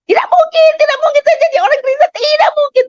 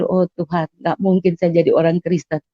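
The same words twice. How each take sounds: First: High-pitched, fast, insistent shouting; reenacted scream. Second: Soft, subdued thinking to oneself; retold inner thought. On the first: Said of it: "Saya teriak". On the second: Patient thinking to God, quiet inner voice. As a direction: say it softly, as a private thought. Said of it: "Saya udah pikir".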